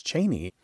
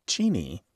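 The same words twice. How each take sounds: First: "Cheney" with an ay sound, CHAY-nee; common mispronunciation. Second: "Cheney" with a long ee, CHEE-nee; family's own pronunciation. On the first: Co-host gives what everyone says, "Cheney" as CHAY-nee. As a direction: say "Cheney" to rhyme with "rainy". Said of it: "which everyone says Cheney". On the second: Co-host gives the former Vice President's real name, "Cheney" as CHEE-nee. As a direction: say "Cheney" to rhyme with "meanie". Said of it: "name was widely mispronounced". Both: Shown as a demonstration.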